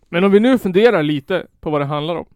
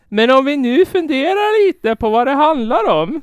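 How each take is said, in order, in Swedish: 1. Talaren pratar med sin vanliga accent. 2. Det är en försökt skånsk accent. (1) "Kör normal röst" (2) "Jag kan inte ens"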